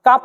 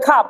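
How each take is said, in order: First: Said in the usual way. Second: খাপ with a puff of air on the খ; aspirated K. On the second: Shown as a demonstration. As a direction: open খাপ on an airy kh. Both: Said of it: "কাপ থেকে হবে খাপ".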